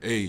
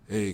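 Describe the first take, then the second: First: It is said in a stern, firm tone. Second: It is said in a soft, easygoing tone. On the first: The wrongdoer is being held accountable. The speaker calls it right. "instead of a stern" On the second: The wrongdoing is being let slide. The speaker calls it wrong. "it's that soft tone"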